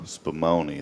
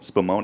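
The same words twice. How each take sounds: First: The word is drawn out slowly with a drawl. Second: The word is said at a normal pace.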